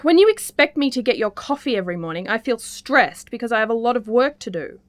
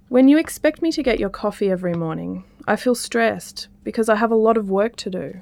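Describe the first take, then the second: First: The tone sounds strong and a bit angry. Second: The tone sounds calm and not angry.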